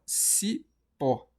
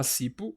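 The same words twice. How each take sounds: First: "cipó" slowly, stressed on open PÓ; stress on last syllable. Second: "cipo" stressed on CI, ending in weak pu; stress on first syllable. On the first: Teacher offering students the right option, "cipó" stressed on PÓ. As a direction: split "cipó", landing on a strong PÓ. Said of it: "ou a gente fala cipó". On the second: Teacher repeating the wrong option, "cipo" stressed on CI. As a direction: say "cipo" as CI-pu, lower, rising. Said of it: "a gente fala cipo". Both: Shown as a demonstration.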